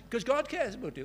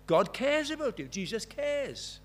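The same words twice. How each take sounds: First: Said in the usual way. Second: Louder, drawn-out insistence; stressing God cares, slowed at the end; emphatic answer. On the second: Retold or imitated. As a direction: lean hard on it, then slow right down. Repeated answer, more emphatic.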